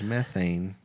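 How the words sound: The word is said with an American pronunciation. "If you're American"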